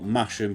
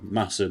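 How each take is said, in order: First: The middle sound is 'sh', as spelled. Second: The middle sound is a plain 's'. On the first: The speaker calls it wrong. "spelt Masham, but I'm always told that's not how you pronounce it" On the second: The speaker calls it right. "so Masham will be will be for the rest of this video"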